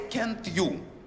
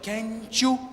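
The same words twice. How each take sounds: First: The t and y are kept separate. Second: The t and y blend into ch. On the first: The speaker calls it wrong. "we don't say can't you" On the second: The speaker calls it right. "it turns out to be ch"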